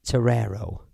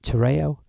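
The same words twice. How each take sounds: First: Terrero with a second r in the last syllable; alternative pronunciation. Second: Terreo with no r before the final o; alternative pronunciation. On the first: Streamer putting the question to chat, Terrero said with both r sounds. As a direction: say "Terrero" as "tuh-RAIR-oh". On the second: Streamer putting the question to chat, Terreo said with a gliding "ay-oh". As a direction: say "Terreo" as "tuh-RAY-oh". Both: Shown as a demonstration. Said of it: "is it pronounced Terrero or Terreo".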